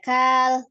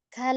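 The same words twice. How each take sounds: First: The vowel after k is drawn out long. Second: The vowel after k is kept short. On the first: The speaker calls it wrong. "tidak memanjangkan kaf, tidak kal" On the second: The speaker calls it right. "tapi langsung kal"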